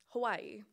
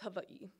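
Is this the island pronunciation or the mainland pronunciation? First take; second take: mainland; island. First: It is said the common mainland way. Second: It is said the island way.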